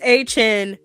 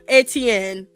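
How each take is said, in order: First: The name sounds like 'ay-chen', two syllables. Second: The name sounds like 'eh-tee-en', three syllables. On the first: The speaker calls it right. "So it's Travis A Chen" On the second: The speaker calls it wrong. "not Etienne"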